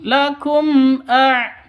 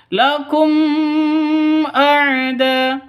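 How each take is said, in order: First: LAKUM A chanted high, m released straight into the a; correct, clear m. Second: LAKUM with m held in a long hum before A'DA; high chant, over-holding the m of LAKUM; wrong, hummed m. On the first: Teacher showing correct izhar, clean m into A. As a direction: clear m in LAKUM, no lingering hum. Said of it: "Seperti itu ya". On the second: Teacher showing the forbidden dengung, long hummed m. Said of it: "Itu salah". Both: Shown as a demonstration.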